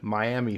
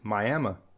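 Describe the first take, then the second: First: It is said the Florida way. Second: It is said the Oklahoma way. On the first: "we have Miami, Florida" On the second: "if you go up to Oklahoma, it's Miami"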